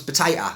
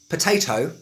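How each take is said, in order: First: "potato" with the last T swallowed, Cockney style; Cockney "potato", ending in "-ay-uh"; glottal stop. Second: Said in the usual way. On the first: Shown as a demonstration. Teacher showing learners Cockney "potato" with a glottal stop. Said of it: "that's called the glottal stop". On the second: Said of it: "the absence of sound".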